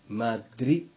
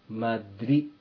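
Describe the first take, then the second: Both takes have the same delivery.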